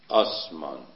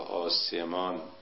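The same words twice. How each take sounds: First: The s has no vowel after it. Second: A vowel is heard right after the s. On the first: The speaker calls it right. "سین ساکنه، صحیحش آسمان" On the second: The speaker calls it wrong. "بعضی ها غلط آسمان یا آسمان میخونن"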